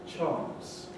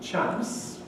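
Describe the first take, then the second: First: It is said in a southern English accent. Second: It is said in a northern English accent. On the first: "southern and standard" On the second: "So you've got northern"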